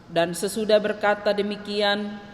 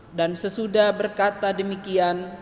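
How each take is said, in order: No difference in how they are said.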